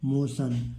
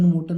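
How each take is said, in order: First: The middle consonant is pronounced 'sh'. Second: The middle consonant is pronounced 't'. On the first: The speaker calls it right. "तो क्या हो गया? मोशन।" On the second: The speaker calls it wrong. "इसको मोटन मोटन नहीं पढ़ेंगे, बहुत सारे बच्चे इसको गलत उच्चारण करते हैं।"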